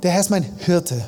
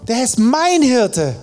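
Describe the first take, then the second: First: The stress is on Hirte. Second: The stress is on mein.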